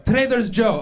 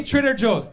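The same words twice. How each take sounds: First: "Trader's Joe" with the s moved onto Trader; grandma's mispronunciation. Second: Said in the usual way. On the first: Acted. Grandma repeating the store name, "Trader's Joe" with the s misplaced. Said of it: "That's how she says it". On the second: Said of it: "Wait, wait, say Trader Joe's".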